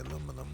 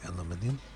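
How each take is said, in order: First: It is said with an American pronunciation. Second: It is said with a British pronunciation. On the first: "I think Americans say aluminum" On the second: "British say aluminium"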